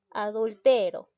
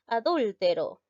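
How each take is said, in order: First: Adultero with the stress on the next-to-last syllable, TE. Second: Adúltero with the stress on the third-last syllable, DÚL. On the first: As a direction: say Adultero as a grave word, leaning on TE. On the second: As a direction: say Adúltero as an esdrújula, punching DÚL. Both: Shown as a demonstration. Contrasts stress forms of adúltero.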